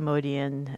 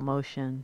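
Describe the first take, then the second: First: The name is said with three syllables, mo-dee-an. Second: The name is said with two syllables, like motion. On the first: "I say Modian on the show" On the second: "a lot of people know Paul as Motion"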